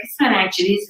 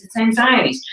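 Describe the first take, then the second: First: "anxieties" said with a sh sound, ank-shuh-tees; mispronounced anxieties. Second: "anxieties" said properly, ang-zai-uh-tees; correct anxieties. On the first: Correcting the meditation teacher, "anxieties" as ank-shuh-tees. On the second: Correcting the meditation teacher, "anxieties" as ang-zai-uh-tees. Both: Shown as a demonstration.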